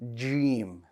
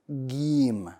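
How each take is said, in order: First: It begins with a light J sound. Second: It begins with a hard G sound. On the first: The speaker calls it right. "So we want that sound" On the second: The speaker calls it wrong. "A G sound, like the English G"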